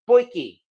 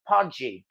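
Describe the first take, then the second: First: The word ends with a 'ki' sound. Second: The word ends with a 'dji' sound. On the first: It is said the way South Africans say it. The speaker calls it right. "that's actually how they pronounce it" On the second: It is read the way the spelling suggests. The speaker calls it wrong. "the spelling looks like it's pronounced Podji"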